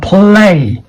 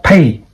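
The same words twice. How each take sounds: First: Play, not pay; correct play. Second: Pay, the wrong way. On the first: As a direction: play with a clear L after the P. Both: Shown as a demonstration. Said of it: "not pay".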